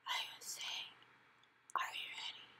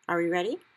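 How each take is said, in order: First: Very soft whisper. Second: Said in the usual way. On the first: Acted. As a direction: breathe it into his ear. Sophie whispering into his ear.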